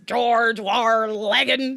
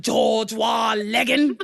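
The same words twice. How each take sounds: First: Loud, very slow rolling British growl of an impression; hammed-up British character shout; British accent, imitated. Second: Loud, drawn-out mock British shout; hammed-up British declamation; British accent. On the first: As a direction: stretch it out like Yosemite Sam gone British. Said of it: "he says it like this". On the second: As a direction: bellow it in a put-on British accent. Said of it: "I do think my British accent is good".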